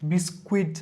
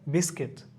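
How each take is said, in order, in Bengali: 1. k এর পরে একটি w ধ্বনি আছে। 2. k এর পরে কোনো w ধ্বনি নেই। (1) "বিস্কুইট বা বিস্কুট হবে না" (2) "এটাকে বিস্কিট"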